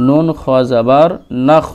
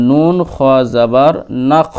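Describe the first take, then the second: No difference in how they are said.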